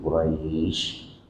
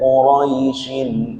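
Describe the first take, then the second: First: The word ends in a stop with a lengthened vowel. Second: The word runs on with a short vowel. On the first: The reciter stops on this word. "kalau mati langsung gitu Quraisy. Roy-nya bisa dipanjangkan" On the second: The reciter joins this word to the next. "kalau diwasol roy-nya dia layin ya, lunak"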